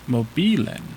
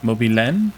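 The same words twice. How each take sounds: First: Mobilen with stress on the middle syllable bi, rising question; stress trial. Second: Mobilen with stress on the last syllable len, rising question; other stress trial. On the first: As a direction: try mobilen stressed on bi, asking. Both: Shown as a demonstration. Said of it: "Gotta be one of those two".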